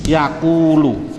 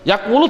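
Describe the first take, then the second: First: The middle is said as a long vowel. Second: The middle is said with a 'w' sound. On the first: The speaker calls it right. "Dioper bunyinya yakulu" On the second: The speaker calls it wrong. "kamu juga melanggar peraturan saya"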